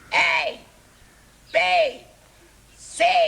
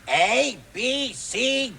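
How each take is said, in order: First: It is shouted as loudly as possible. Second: It is said at normal volume.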